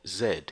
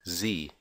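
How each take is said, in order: First: The letter is said as zed. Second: The letter is said as zee. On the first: "as it's pronounced in the U K" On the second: "as it's pronounced in the United States"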